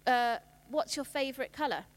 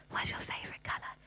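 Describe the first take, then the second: First: Said in the usual way. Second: Soft secret whisper, no voice at all. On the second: Shown as a demonstration. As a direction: whisper it into cupped hands like a small child. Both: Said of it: "we get them to whisper into their hands".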